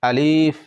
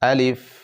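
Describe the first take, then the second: First: The word is drawn out slowly. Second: The word is said quickly and short. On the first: The speaker calls it wrong. "আলিফ এরকম বলা যাবে না" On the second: The speaker calls it right. "এই আলিফটি তাড়াতাড়ি পড়তে হয়"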